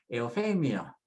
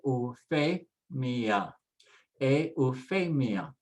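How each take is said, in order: First: Euphemia as one word, eh-oo-FEH-mya; joined up. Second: Euphemia slowly as eh-oo-FEH-mee-ah; sounded out slowly. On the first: Teacher finishes the build-up for learners, whole word joined. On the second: Teacher adds the consonants for learners, slow syllables. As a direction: draw out each syllable of euphemia. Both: Shown as a demonstration. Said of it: "Now we'll add the consonants".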